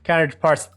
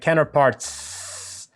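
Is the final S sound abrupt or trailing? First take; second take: abrupt; trailing. First: The final S sound is cut off abruptly. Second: The final S sound trails off softly. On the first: The speaker calls it wrong. "if that gets cut off, it's kind of like counterparts, you know, it's too abrupt and it sounds bad" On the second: The speaker calls it right. "there's like that S sound that's being like, you know, tacked on"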